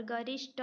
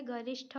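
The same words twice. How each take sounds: First: गरिष्ठ with unaspirated ending, "garishta"; wrong pronunciation. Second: गरिष्ठ with aspirated ending, "garishtha"; correct pronunciation. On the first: Teacher rejecting a misspelling, गरिष्ठ with unaspirated "ṭa". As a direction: end गरिष्ठ on a hard "ṭa" without breath. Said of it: "ट ठ का अदला बदली है". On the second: Teacher giving the correct spelling, गरिष्ठ with aspirated "ṭha". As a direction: end गरिष्ठ on a breathed "ṭha". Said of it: "होता है". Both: Shown as a demonstration.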